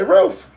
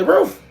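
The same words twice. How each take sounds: First: Even higher, louder rising "Ruth"; mock bark. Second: High, loud barky "Ruth"; mock bark. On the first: Owner urging her dog to bark, high rising yap. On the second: Owner modelling a bark for her dog, high and loud.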